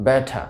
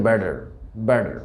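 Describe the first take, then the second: First: ব্যাঠা, "better" with a clear t and no r; crisp t in ব্যাঠা; British pronunciation. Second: American ব্যাডার, "better" with t as d; t softened to d in ব্যাডার; American pronunciation. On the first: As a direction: say ব্যাঠা as "ba-tuh". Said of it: "ওয়ার্ডের মধ্যকার টিকে". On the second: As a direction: say ব্যাডার as "ba-der". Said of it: "আমেরিকানরা উচ্চারণ করে থাকে". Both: Shown as a demonstration.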